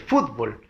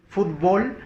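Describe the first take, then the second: First: The stress is on the first syllable. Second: The stress is on the last syllable. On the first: "sigue siendo igual que fútbol" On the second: "con fuerza de voz en bol"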